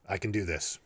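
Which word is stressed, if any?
none. No word stands out; the delivery is flat.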